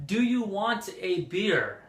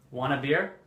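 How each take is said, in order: First: WANT A slow and fully separated, pitched higher; "want a" spelled out word by word, slowly; stiffly complete "Do you want a beer"; over-careful full form. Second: "Want a" run together as wanna, rising; quick wanna for "Want a", casual question; casual reduced form. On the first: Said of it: "I wouldn't say". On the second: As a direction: toss off "Want a beer" as wanna beer. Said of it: "I would say". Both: Shown as a demonstration.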